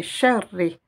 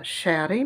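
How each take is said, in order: First: Sharri with the r held as two; doubled r. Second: Shari with one light, short r; single r. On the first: Teacher showing the shidda, sharri with doubled r. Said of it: "comme si j'avais deux lettres ra". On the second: Teacher showing what not to say, shari with single r. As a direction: say shari without doubling the r. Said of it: "je dirais pas shari". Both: Shown as a demonstration.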